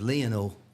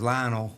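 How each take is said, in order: First: The name is said with an Argentine pronunciation. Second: The name is said with an American pronunciation. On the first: This is how people where he is from say it. The speaker calls it right. "the way they pronounce it, ... where he's from is Lionel" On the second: This is how the speaker used to think it was said. The speaker calls it wrong. "I always thought it was Lionel"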